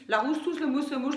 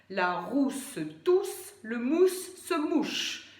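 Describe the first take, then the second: First: The syllables run together without rhythmic accents. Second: Certain syllables get strong accents in a clear rhythm. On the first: The listener will not understand the words. The speaker calls it wrong. "Si vous faites juste" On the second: The syllables are articulated clearly. The speaker calls it right. "c'est de rythmer la phrase et donc d'accentuer certaines syllabes"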